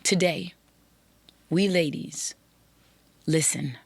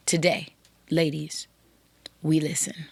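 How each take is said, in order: First: Said in the usual way. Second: Whispered. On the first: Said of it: "Can't emphasize the word enough". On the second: Real, not acted. Podcast host urging women listeners to listen, whispered. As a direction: whisper the last words.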